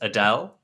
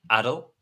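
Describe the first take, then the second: First: It is said like the name Adele. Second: It is said as Adel, not Adele. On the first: This is how the spelling would normally be read. The speaker calls it wrong. "which any normal person would pronounce Adele" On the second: This is how the place name is actually said. The speaker calls it right. "but no, it's Adel"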